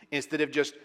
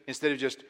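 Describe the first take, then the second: No difference in how they are said.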